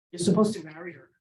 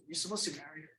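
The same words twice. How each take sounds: First: Said in the usual way. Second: A voice heard in the head, much softer; eerie soft inner voice; hushed inner voice. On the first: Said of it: "this voice comes over my head". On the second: Retold or imitated. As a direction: hush it like a voice from nowhere. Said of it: "This voice says".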